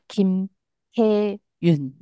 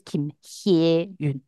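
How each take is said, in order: First: The middle syllable has a plain 'e' vowel. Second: The middle syllable has a 'ye' vowel. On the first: The speaker calls it right. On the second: The speaker calls it wrong.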